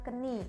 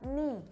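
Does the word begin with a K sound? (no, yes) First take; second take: yes; no. First: The word starts with a K sound. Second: The word starts with an N sound, no K. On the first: The speaker calls it wrong. "bukan keni. Nggak usah kalian bilang keni" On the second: The speaker calls it right. "The K in here is not pronounced"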